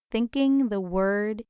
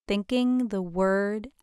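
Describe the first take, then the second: No difference in how they are said.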